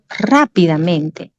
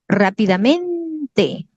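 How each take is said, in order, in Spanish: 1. La primera sílaba lleva mucha fuerza. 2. La primera sílaba no es tónica. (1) "la sílaba tónica, la mayor fuerza de voz está aquí" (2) "Y no es rápidamente, no existe eso"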